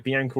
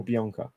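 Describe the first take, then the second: First: First option, Bianca as bee-ANK-uh; short-a pronunciation. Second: Second option, Bianca as bee-AHNK-uh; broad-a pronunciation. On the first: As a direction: Bianca rhyming its middle with "bank". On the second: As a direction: Bianca with a long open "ah". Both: Shown as a demonstration. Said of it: "How do you pronounce it?".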